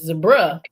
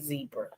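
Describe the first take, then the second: First: Zebra is said with a British pronunciation. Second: Zebra is said with the speaker's local pronunciation. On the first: The speaker calls it right. "real English people come over here and they say zebra" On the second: The speaker calls it wrong. "but we say zebra"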